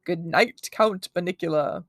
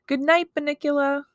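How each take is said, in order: First: Sarcastic mock-Transylvanian count; a light, badly faked Transylvanian accent; attempted Transylvanian accent. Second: Put-on high, louder kid voice; sing-out child's goodnight; little boy's goodnight. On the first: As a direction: say it sarcastically, Transylvanian vampire style. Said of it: "sarcastically, in what I took to be his attempt at a Transylvanian accent". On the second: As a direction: call goodnight to the pet, high. Toby's fond goodnight to rabbit. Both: A narrator's reading.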